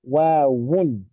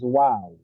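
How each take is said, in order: First: The word ends with an added 'un' sound. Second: The word ends without any added 'un' sound. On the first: "Initially it is wawun" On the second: "which eventually becomes wow"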